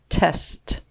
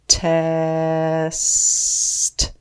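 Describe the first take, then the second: First: The word is said quickly as one unit. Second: The word is stretched out, sound by sound. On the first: "Say it fast" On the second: "Tap and stretch"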